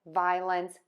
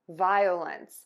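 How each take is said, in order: Both takes have the same delivery.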